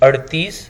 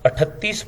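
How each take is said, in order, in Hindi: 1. बीच का व्यंजन फ़्लैप वाला 'र' है। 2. बीच का व्यंजन महाप्राण 'त' है।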